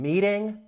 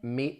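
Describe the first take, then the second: First: The ending is a full -ing sound. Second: The ending drops the g sound.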